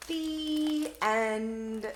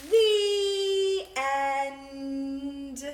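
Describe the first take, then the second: First: Said in the usual way. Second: Loud, drawn-out "The end." falling; loud slow "The end."; grand ending. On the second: Shown as a demonstration. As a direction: close the book with ceremony. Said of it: "When the book is over, say".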